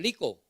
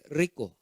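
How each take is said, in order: First: The word begins with an L sound. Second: The word begins with an R sound. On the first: "un asiático puede eh, pronunciar como lico" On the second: "aquí dice rico"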